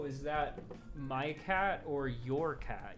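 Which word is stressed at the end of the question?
your. The stress falls on "your", not the final "cat". The speaker calls it right. "you'd be like"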